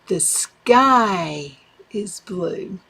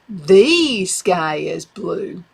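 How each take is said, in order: First: The stress is on "sky". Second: The stress is on "the".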